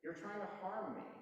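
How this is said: It is said in a soft, gentle tone.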